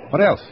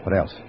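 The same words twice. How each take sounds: First: Sharp and high with alarm. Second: Said in the usual way. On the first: Acted. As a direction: press him urgently. Presses the stranger, alarmed.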